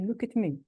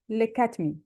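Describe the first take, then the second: First: The word 'at' is said in its weak, reduced form. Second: The word 'at' is said in its strong, full form. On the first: The speaker calls it wrong. "we cannot pronounce both of them weak. We cannot say" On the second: The speaker calls it right. "So we say, ... here at is strong, but not stressed"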